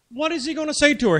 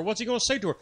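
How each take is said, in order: First: "What is he gonna say to her?" asked again, higher and louder; emphatic repeat. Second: Said in the usual way. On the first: Real, not acted.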